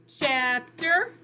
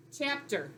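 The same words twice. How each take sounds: First: "Chapter" louder, rising at the end; louder rising "Chapter" for students; rising repeat. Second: Chapter, dropped quietly like a first read; quiet first take of "Chapter"; softer model. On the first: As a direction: say Chapter again, lifting it for the class. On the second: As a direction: say "Chapter" softly, falling. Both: Shown as a demonstration. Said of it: "Look for the pattern".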